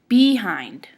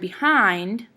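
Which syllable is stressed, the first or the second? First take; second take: first; second. First: The stress is on the first syllable. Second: The stress is on the second syllable. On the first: It refers to somebody's rear end. "what would happen if we stressed be instead of hind?" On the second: It means in the back of. "with hind stressed"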